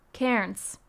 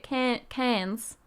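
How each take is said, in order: First: "Cairns" said as two syllables, KEH-runs, falling; unsure pronunciation. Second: "Cairns" restarted and said as KAK-anz, flat A; second try. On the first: Vlogger guessing the town name aloud, first attempt at "Cairns". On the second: Vlogger retrying the Australian town name, correcting "Cairns". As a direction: stumble into "Cairns" with a flat A like CANS. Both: Real, not acted. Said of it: "However you say it".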